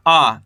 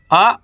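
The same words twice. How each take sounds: First: आ drawn out with a falling tune; long, held आ; long vowel. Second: आ said short; don't draw out the आ; quick, brief आ; short vowel. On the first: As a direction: stretch the आ. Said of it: "खींच के पढ़ेंगे". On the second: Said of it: "कम खींच के पढ़ेंगे". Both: Shown as a demonstration.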